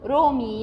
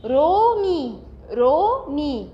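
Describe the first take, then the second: First: Said in the usual way. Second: "رومي" sounded out with two long vowels; teacher modelling "رومي" with drawn-out syllables; pronunciation demo. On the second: Shown as a demonstration. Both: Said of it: "حد كده يحاول ينطقها".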